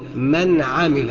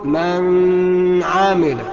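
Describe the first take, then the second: First: The nun is said clearly without nasal hum. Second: The nun is held with a nasal hum. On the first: The speaker calls it right. "من عامل بدون اي ادغام او اخفاء" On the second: The speaker calls it wrong. "اوعى تقول من عامل، يبقى انت كده بدات ان انت تغن في مكان لا يجب فيه الغنه"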